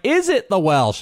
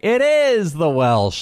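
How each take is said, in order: First: High, playful query on "Is it the Welsh"; questioning nickname greeting. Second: "is" stretched high in "It is the Welsh"; slow, raised answer leaning hard on "is"; emphatic confirmation. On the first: Director teasing the host on the phone, mock questioning. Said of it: "it's a question". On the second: Host answering the director's call, playful emphatic confirmation. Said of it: "And I'm like". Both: Retold or imitated.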